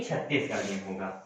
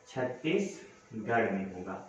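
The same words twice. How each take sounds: First: Low, soft self-correction; corrected aside, low and soft; quiet correction. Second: Low, soft and slow emphasis; slow, soft repeat of the answer; slow quiet repeat. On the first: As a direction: murmur the right answer to yourself. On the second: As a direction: say it again slowly so it sticks. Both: Shown as a demonstration. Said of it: "sorry, United कह रहा हूँ".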